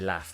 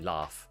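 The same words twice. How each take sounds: First: It has a short Northern 'a' vowel. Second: It has a long Southern 'ah' vowel. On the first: "I say laugh, which is like a Northern A" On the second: "most sort of received pronunciation Southern speakers would say laugh"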